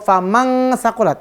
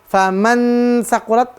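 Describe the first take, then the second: First: The n is said as a full ng sound. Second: The n is said as a clear, full n. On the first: "Bukan eng" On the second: "bukan n"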